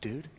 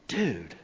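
First: The word is said with fear. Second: The word is said with disgust. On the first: The speaker is frightened. "used to communicate fear" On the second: The speaker is repulsed. "used to communicate disgust"

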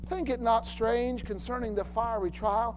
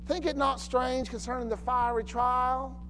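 First: It is said in a neutral accent. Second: It is said in a southern accent.

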